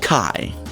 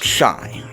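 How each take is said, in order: First: The word begins with a 'k' sound. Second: The word begins with an 'sh' sound. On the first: The speaker calls it right. "It's pronounced Kai" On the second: The speaker calls it wrong. "I know this isn't pronounced shy"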